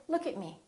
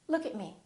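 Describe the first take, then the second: The two takes are said the same way.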